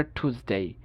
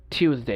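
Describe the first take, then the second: First: American টিউসডে as TOOS-day; no Y glide in টিউসডে; American pronunciation. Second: British টিউসডে as TYOOS-day; Y glide in টিউসডে; British pronunciation. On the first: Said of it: "আমেরিকানরা বলে". (টিউসডে-তে উ, American) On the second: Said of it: "ব্রিটিশরা বলে". (টিউসডে-তে ইউ, British) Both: Shown as a demonstration.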